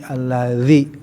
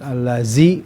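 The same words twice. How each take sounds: First: The middle consonant is a voiced th sound. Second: The middle consonant is a plain z sound. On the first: The speaker calls it right. "tapi allazi ya" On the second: The speaker calls it wrong. "Ini bukan allazi ya"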